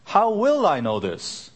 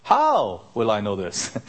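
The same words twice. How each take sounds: First: "will" lifted high and leaned on; How "will" I know this, pitched up on will; stress on WILL. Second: "How" will I know this, weight on how, falling; stress on HOW. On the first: Pastor trying a new emphasis on "will" for the congregation. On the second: Pastor moving the emphasis to "how" for the congregation. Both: Shown as a demonstration. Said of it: "You put the right emphasis in the right place".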